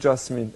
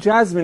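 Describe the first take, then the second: First: The name is said with a non-American pronunciation. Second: The name is said with an American pronunciation. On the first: The speaker calls it wrong. "اشتباه میگفتم تا الان" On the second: The speaker calls it right. "این لهجه دیگه آمریکاییش میشه"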